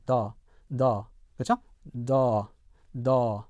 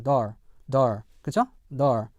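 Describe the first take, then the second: First: British door, written "the", long vowel without R; British non-rhotic. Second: American door with a clear final R. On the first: Teacher contrasts with American, British R-less door. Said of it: "R 사운드를 하지 않고". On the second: Teacher models for learners, American rhotic door. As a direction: close door on an R, American style. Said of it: "일반 미국 영어에서는요". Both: Shown as a demonstration.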